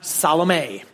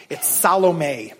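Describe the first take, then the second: First: Salome spoken gently as sah-luh-MAY; Salome with a falling sah-luh-MAY; correct Salome. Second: Salome said slowly as sah-LOH-may; pronouncing Salome. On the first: Pastor correcting the congregation's Salome as sah-luh-MAY. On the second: Pastor teaching the congregation Salome as sah-LOH-may. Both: Shown as a demonstration. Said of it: "everyone say Salome".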